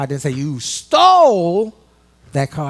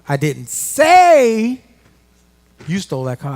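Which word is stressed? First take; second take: stole; say. First: The word 'stole' is stressed. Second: The word 'say' is stressed.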